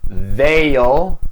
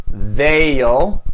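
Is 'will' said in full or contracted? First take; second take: contracted; contracted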